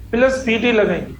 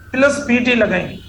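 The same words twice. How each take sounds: The two takes are said the same way.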